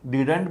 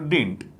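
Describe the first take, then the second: First: The middle d sound is pronounced clearly. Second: The middle d sound is dropped. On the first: The speaker calls it wrong. "डिडंट भी ठीक है" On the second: The speaker calls it right. "इसका उच्चारण थोड़ा सा डिंट बोला करो"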